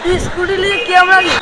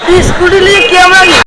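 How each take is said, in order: First: Said in the usual way. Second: Louder repeat. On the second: Real, not acted. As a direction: say it louder, over traffic noise. Kid repeats question over traffic.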